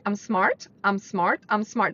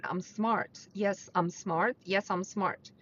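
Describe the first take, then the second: First: Empty repetition of "I'm smart", like a parrot; rote parroting. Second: Softer and slower "I'm smart", meant sincerely; with intention. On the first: Coach showing listeners the wrong way, rote parroting. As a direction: rattle off "I'm smart" mechanically, no conviction. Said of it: "don't just say it parroting". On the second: Coach showing listeners the right way, softer sincere self-talk. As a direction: say "Yes, I'm smart" as if you truly believe it. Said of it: "with intention". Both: Shown as a demonstration.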